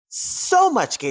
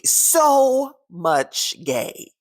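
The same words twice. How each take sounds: First: Said in the usual way. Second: SO held very long and high; drawn-out emphasis. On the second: Real, not acted. Repeats line for emphasis.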